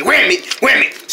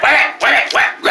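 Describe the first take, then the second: First: Said in the usual way. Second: High, angry shouted wham it. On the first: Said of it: "you gotta say". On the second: Shown as a demonstration. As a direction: bark it out furiously. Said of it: "Say that".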